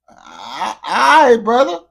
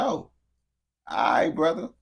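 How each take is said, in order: First: Loud high all right brother; louder, higher. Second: Said in the usual way. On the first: Real, not acted. Streamer repeating to viewer, much louder. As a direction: shout it the second time.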